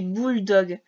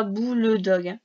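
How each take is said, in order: First: "bulldog" run together as two tight syllables, bul-dog. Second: "boule dog" split apart with a full "boule" vowel before dog; wrong way, spelled out. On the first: Teacher giving a pupil the right way to say bulldog, run together. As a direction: say "bulldog" the English way, no middle vowel. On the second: Teacher showing the pupil the wrong way to say it, split apart. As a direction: show the wrong "boule dog", each part said separately. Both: Shown as a demonstration. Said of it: "On dit pas boule dog".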